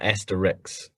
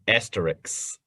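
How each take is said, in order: First: The word ends with an "ix" sound. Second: The word ends with an "isk" sound. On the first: The speaker calls it wrong. "not asterix" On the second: The speaker calls it right. "You're supposed to say asterisk"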